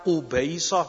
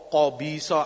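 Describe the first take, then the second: First: The first vowel is a u sound. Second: The first vowel is an a sound. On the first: The speaker calls it wrong. "agar tidak dibaca qubaisa" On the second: The speaker calls it right. "dengan fathah awalnya qa"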